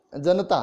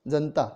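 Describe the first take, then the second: First: Slow जनता with full middle a, ja-na-ta; correct pronunciation. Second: जनता clipped as jan-ta; common pronunciation. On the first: Teacher slowly gives pure जनता. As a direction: stretch जनता into three syllables. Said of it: "सही शब्द होना चाहिए". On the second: Teacher contrasts spoken जनता. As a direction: drop the middle a in जनता. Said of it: "हम बोलते हैं". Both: Shown as a demonstration.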